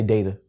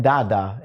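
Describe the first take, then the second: First: "data" said DAY-tuh, low; DAY-tuh pronunciation. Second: "dada" for data, open ah vowels; DAH-dah pronunciation. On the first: Teacher settling on one way, "data" as DAY-tuh. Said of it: "I'm just say data". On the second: Teacher catching his own pronunciation, "dada" as DAH-dah. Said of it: "Now I'm saying dada". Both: Shown as a demonstration.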